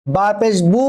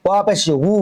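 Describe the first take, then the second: First: "বু" as bu, lips closing for b; clear b. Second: "হু" said as wu with rounded lips; w, never b. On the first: Teacher shows the difference from waw, clear b. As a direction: close the lips fully on "বু". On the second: Teacher shows waw differs from ba, rounded wu. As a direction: glide into "হু" as wu, lips open. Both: Shown as a demonstration. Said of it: "উচ্চারণ পার্থক্য হবে".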